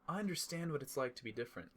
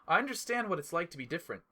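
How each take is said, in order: First: It is said quietly and softly. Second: It is said at normal loudness.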